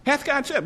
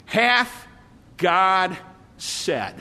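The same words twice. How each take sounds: First: Quick, higher and softer sly question; a hint of the snake's teasing doubt; sly serpent. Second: Serpent voice. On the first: Pastor repeating the serpent's question to Eve, higher and softer. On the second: Retold or imitated. Pastor voicing the serpent questioning Eve, drawn out and sly. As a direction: draw it out slowly, each word hanging. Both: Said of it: "the serpent said".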